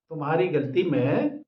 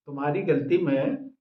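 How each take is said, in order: Both takes have the same delivery.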